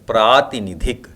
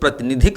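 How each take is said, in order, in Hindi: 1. पहला स्वर लंबा है। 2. पहला स्वर छोटा है। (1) "लेकिन सही वर्तनी है प्रातिनिधिक" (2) "अक्सर लोग प्रतिनिधिक बोलते हैं"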